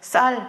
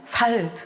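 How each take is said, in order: First: The first s sound is tense. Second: The first s sound is plain. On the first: "쌀 해봐" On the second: "경상도 어디쯤이다 알 수 있죠"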